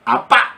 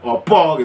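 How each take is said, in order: First: Both vowels are pronounced as open a. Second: Both vowels are pronounced as rounded o. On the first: It is how people in western Central Java say it. "Jawa Tengah bagian bagian barat itu di Tegal dan lain-lain itu kalau bilang apa itu apa" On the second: It is how people in Solo and Jogja say it. "Kalau orang Solo, orang Jogja, opo gitu kan"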